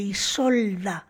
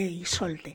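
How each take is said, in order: First: The name ends with an 'a' sound. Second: The name ends with an 'e' sound. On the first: It is the Spanish form of the name. "castellanizando el nombre" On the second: It is the original German form of the name. "el nombre en alemán"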